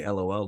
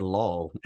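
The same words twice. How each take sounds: First: "L O L" said as three separate letters; each letter of "L O L" named in turn; spelled-out LOL. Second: "lol" said as one syllable, rhyming with doll; "lol" pronounced like a word, no letters. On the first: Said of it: "why did you say L O L like that". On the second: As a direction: read "lol" as a single word. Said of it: "Like, you said lol". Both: Shown as a demonstration.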